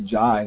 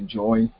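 First: The vowel sounds like eye. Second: The vowel sounds like oy. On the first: This is not the Bengali form. "They don't say jai" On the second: This is the Bengali form. "they say joy"

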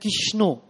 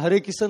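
First: The r is dropped and it ends in o. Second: The r is dropped and it ends in san. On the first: "Bengali devotees chant Kishno" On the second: "they call Kisan"

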